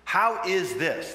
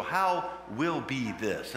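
First: "How" drawn out slowly; stress on How. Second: Slow wondering question. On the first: Shown as a demonstration. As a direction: lean on "How", slow and louder. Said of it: "What is the Greek verb?". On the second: Acted. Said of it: "Mary said to the angel".

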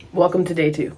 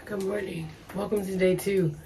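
First: Said in the usual way. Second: Hushed, hoarse morning voice; barely there, raspy whisper. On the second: Real, not acted. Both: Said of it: "by tomorrow I will not have a voice".

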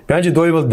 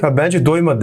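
First: Lightly imitated smug chuckling tease; retold jibe with a faint laugh; mock chuckle. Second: Retelling a smug chuckling jibe; a hint of snickering teasing; mock snicker. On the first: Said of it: "bu tekrar gülerek dedi". (hafif gülerek taklit edilen alay) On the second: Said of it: "Kıs kıs gülerek". (hafif kıs kıs gülerek alaycı)

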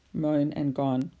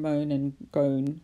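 First: Said in the usual way. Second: "gone" said with a long O to match "moan"; forced full rhyme. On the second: Shown as a demonstration. Teacher testing a half rhyme, "gone" stretched to rhyme with "moan". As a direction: say "gone" like "goan", slowly. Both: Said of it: "a half rhyme".

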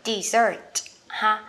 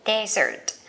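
First: Dessert stressed on the second syllable, di-ZERT, slow. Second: Desert stressed on the first syllable, DEZ-ert. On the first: Teacher contrasting dessert for learners, stress on ZERT. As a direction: lean on the end of dessert, drawn out. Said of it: "mình sẽ đọc là dessert". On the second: Teacher contrasting desert for learners, stress on DEZ. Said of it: "Cái này sẽ đọc là desert". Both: Shown as a demonstration.

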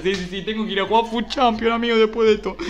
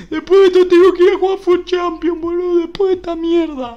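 First: Said in the usual way. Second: High, loud exasperated yell; angry outburst. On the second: Real, not acted. Streamer dreads playing Champions after awful packs, angry yelling. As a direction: repeat it as a raised-voice protest. Repeats complaint, now raging.

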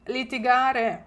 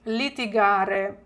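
First: Said in the usual way. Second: Slow, clear Italian model; slow model word. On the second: Shown as a demonstration. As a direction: say it slowly for students to repeat. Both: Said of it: "come si dice сваритись італійською".

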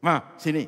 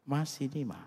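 First: Loud, high bark at a wife; mock angry yell; harsh summons. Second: High, sweet call to a beloved wife; fond, lilting summons; affectionate call. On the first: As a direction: order your wife over as if calling a devil. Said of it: "itu setan, itu saudara, saudara panggil setan". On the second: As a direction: call your wife over lovingly. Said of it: "Nadanya, intonasinya, itu bahasanya". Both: Shown as a demonstration.

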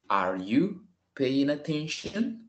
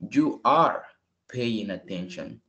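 First: Slow question, pitched higher, rising; question tune. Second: Falling statement tune, slow at the end. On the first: Teacher modelling a question, slow and rising. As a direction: lift it high like a real question. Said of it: "a questions would be". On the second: Teacher modelling a statement, falling at the end. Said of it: "I have to say it in this way". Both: Shown as a demonstration.

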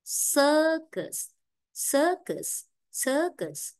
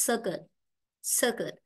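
First: "circus" with a drawn-out first vowel; long vowel. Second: "circuit" with a short first vowel. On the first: Teacher modelling the long vowel for the class, lengthened pronunciation. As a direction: stretch the "ir" in "circus", falling after it. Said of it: "Nên ta đọc dài hơn". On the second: Teacher showing the class the wrong short vowel, short-vowel demo. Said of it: "Đấy không có ớ các bạn này". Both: Shown as a demonstration.

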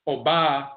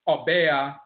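First: "Oba" as aw-BAH, open ah; Asante pronunciation. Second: "Obea" as aw-BAY-ah; Akwamu pronunciation. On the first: Lecturer contrasting the vowel shift, "Oba" as aw-BAH. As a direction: stretch the ah in "Oba". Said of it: "Asante dialect". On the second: Lecturer contrasting the vowel shift, "Obea" as aw-BAY-ah. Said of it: "Akwamu dialect". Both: Shown as a demonstration.

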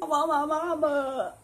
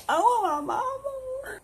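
First: A hint of whimper, a small voice; whiny drunk. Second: Very high, slow, hammed-up crying; mock drunk sobbing. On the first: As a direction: start whining for mama. Drunk, starts to cry. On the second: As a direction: wail for mama like a drunk.

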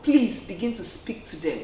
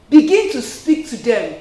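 First: Said in the usual way. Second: Louder, insistent repeat; emphatic repeat. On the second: Real, not acted. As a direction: push it home hard.

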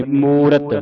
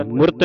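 First: ਮੂਰਤ with long ੂ and a fully voiced ਰ; full r sound. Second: ਮੁਰਤ short, with r crushed into t; wrong pronunciation. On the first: Teacher telling children to sound the r, full pronunciation. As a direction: stretch ਮੂ, then give ਰਤ its vowel. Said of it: "ਰਾਰੇ ਦੀ ਆਵਾਜ਼ ਪੂਰੀ ਕੱਢਣੀ". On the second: Teacher showing children what not to say, shortened. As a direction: cut ਮੁਰਤ to one quick syllable. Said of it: "ਨਹੀਂ ਬੋਲਣਾ". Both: Shown as a demonstration.

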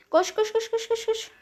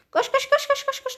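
First: Urgent high panicked chant; fleeing, urging yourself on; being chased. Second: Even higher frantic chant; being chased. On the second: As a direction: panic rising, running for life. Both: Real, not acted. Fleeing in Among Us.

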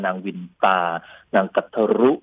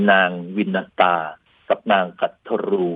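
First: วินตา as two syllables win-ta, กัทรุ with short final u; short pronunciation. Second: วินตา as win-na-ta, กัทรู with long final u; long-form names. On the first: Lecturer shows how some say it, short วินตา and กัทรุ. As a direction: cut the end of กัทรุ short, no extra na in วินตา. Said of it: "บางคนก็ออกเสียงสั้นๆ". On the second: Lecturer names two wives, วินตา as win-na-ta, กัทรู long-ended. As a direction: draw out the end of กัทรู, three syllables in วินตา. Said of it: "อันนี้ก็แล้วแต่จะออกเสียงนะครับ". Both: Shown as a demonstration.

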